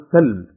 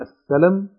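First: The lam is said without a following vowel. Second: The lam is followed by an a vowel. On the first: It means peace or reconciliation. "بسكون اللام" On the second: It means surrender and submission. "فإذا نصبت اللام"

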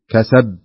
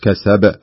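First: The final b is weak and nearly unheard. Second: The final b is released with a clear bounce. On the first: The speaker calls it wrong. "كأنك ما تنطق الباء" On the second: The speaker calls it right. "بهذا الشكل كسب"

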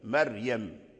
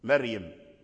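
First: The r is pronounced light and thin. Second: The r is pronounced light and thin.

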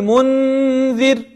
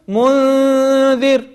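First: The n is pronounced fully at its own place. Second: The n is nasalized, tongue moving toward the dh. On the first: The speaker calls it wrong. "ولم أقل منذر" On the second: The speaker calls it right. "قربت من مخرج الذال"

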